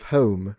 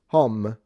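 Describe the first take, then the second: First: The vowel glides like an English diphthong. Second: The vowel is a short, plain Italian O. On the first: The speaker calls it right. "instead of home" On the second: The speaker calls it wrong. "Italians will just say home"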